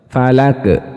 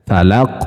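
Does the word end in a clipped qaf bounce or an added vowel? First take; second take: added vowel; qaf bounce. First: The final sound trails off into an extra vowel. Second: The final qaf ends in a short clipped bounce. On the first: The speaker calls it wrong. "kesalahan yang sering terjadi seperti apa? Falake" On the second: The speaker calls it right. "harus dikembalikan ke makhraj aslinya. Huruf qaf"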